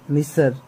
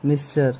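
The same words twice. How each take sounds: First: मिसर said as "mi-sar", no t sound; मिसर with a plain s, two syllables; मिसर spoken without the t, "mi-sar"; say misar. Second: मिस्टर said as "mis-ter" with a clear t; मिस्टर with the t sounded; मिस्टर spoken like the English "mister". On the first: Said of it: "मिसर ही बोलो". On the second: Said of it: "आप जैसे भी बोल सकते हो इसका pronunciation". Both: Shown as a demonstration.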